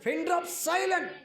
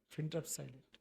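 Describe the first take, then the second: First: High, loud proclamation; emphatic shout. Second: Lower, soft and hushed; hushed answer. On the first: Pastor urging the congregation, high loud call. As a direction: ring it out high over the crowd. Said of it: "ఎట్టుండాలి ప్రజలు?". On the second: Pastor naming the most frightening silence, hushed. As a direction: drop low and quiet for effect. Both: Acted.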